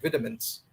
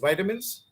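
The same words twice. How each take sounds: First: It is said with a British pronunciation. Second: It is said with an American pronunciation. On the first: "British pronounce it as" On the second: "The American way of pronunciation is"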